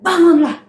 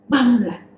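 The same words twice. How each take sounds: First: High, loud wake-up call; teacher calling the children to rise up; rousing call. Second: Said in the usual way. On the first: Acted. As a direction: rouse the listeners. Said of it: "exhorting children". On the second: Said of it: "repeated plainly".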